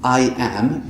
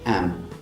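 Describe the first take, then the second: First: Both words are said fully and slowly. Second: It is reduced to a very short weak syllable. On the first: "the slow version" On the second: "The fastest one sounds like am"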